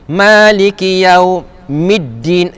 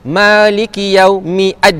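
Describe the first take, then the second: First: The 'ad' is joined smoothly onto the previous word. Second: The 'ad' is said separately with its own vowel. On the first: The speaker calls it right. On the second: The speaker calls it wrong.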